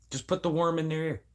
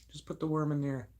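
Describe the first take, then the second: First: Raised-pitch scheming line; planting an idea. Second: High, hushed scheming repeat; softer echo. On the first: Speaker scheming to plant doubts, higher-pitched voice. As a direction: say it higher, at normal volume. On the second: Speaker repeating the scheme as a soft, high echo. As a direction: drop the volume, keep the pitch up. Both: Acted.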